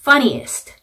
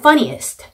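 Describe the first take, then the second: The two takes are said the same way.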